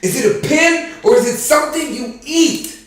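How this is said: It is said with strong, shouted emotion.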